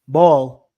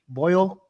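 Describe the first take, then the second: First: The vowel is a flat 'aw' sound. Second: The vowel is the gliding 'oy' sound. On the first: "It's ball" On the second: "We don't say boil"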